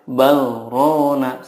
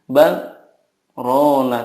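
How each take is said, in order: First: The two words run together without pause. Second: A brief pause separates the two words. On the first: The speaker calls it wrong. "tidak boleh bal rona" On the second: The speaker calls it right. "harus ada saktahnya. Jadi bal rona"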